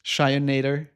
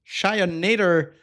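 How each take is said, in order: First: Said in the usual way. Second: Shionator stretched slowly with a falling end; a slow, playful repeat of Shionator; drawn-out name. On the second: Real, not acted. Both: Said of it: "Thank you for the follow".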